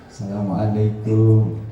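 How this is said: It is said softly and humbly. It greets a respected teacher. "bungkuk-bungkuk halus"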